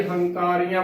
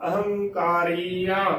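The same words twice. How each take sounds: First: "ਹੰਕਾਰੀਆਂ" without its opening a; wrong pronunciation. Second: "ਅਹੰਕਾਰੀਆਂ" slowly, with the opening a sounded; correct pronunciation. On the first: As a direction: drop the first vowel, starting "ਹੰਕਾਰੀਆਂ" on h. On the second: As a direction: sound the first vowel: a-hang-kaa-ree-aan for "ਅਹੰਕਾਰੀਆਂ". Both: Shown as a demonstration. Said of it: "ਨਾ ਕਿ ਹੰਕਾਰੀਆਂ ਬੋਲਣਾ".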